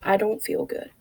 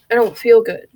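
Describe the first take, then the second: First: Quieter, letting it sink in; soft and low. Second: Said in the usual way. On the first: Retold or imitated. Repeating a depressed person's words, softly. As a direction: say it softly, like it's heavy. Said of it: "Three simple words". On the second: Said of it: "a depressed person will say".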